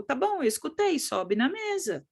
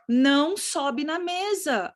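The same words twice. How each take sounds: First: Lightly voiced child repeating the order back; child obeying what it heard. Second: Put-on slow, higher-pitched order to a child; drawn-out parental prohibition on "não"; parent's warning. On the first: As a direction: answer as a compliant child, slowing on "sobe na mesa". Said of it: "A criança sobe e fica te olhando". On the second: Shown as a demonstration. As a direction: stretch "não sobe" out as a firm ban. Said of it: "Quando você fala assim".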